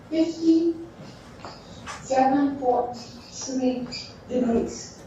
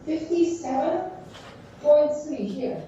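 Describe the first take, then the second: First: Each number spelled out slowly and clearly; slow down so they can write it; slow dictation. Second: Said in the usual way. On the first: Shown as a demonstration. Teacher dictating the angle to students, slow and deliberate.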